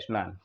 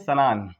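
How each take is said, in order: First: The word has its standard pure Hindi pronunciation. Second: The word has a Punjabi regional pronunciation. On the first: The speaker calls it right. "शुद्ध ही बोला जाए स्नान" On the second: The speaker calls it wrong. "Punjabi क्षेत्र में आप देखेंगे वो स्नान बोलते हैं"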